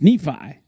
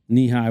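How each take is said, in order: First: The middle consonant is an F sound. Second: The middle consonant is an H sound. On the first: The speaker calls it right. "It's Nephi" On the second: The speaker calls it wrong. "he just mispronounced my name"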